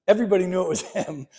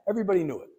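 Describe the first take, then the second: First: Quick words breaking into a laugh; rushed and chuckling at the open secret. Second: Said in the usual way. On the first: Real, not acted. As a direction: laugh through the end, amused at the obvious. Joking that the secret was obvious.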